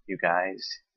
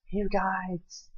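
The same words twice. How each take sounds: First: Said in the usual way. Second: High-pitched mock "you guys". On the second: Rejecting "you guys" in favor of y'all, high mocking voice. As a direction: squeak it mockingly, far above your own voice.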